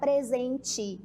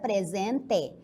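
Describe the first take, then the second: First: The final vowel sounds like an 'i'. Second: The final vowel sounds like a clear 'e'. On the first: This is how it is said in the north. "mas nós aqui vamos pronunciar presente" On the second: This is how it is said in the south. "Lá no sul se pronuncia presente"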